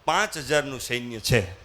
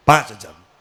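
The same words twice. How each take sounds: First: Said in the usual way. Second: પાંચ punched much louder and low, to stress how few. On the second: Acted. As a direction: hit પાંચ hard in the repeat. Minister repeats the small number. ("પાંચ" પર જોરથી ભાર)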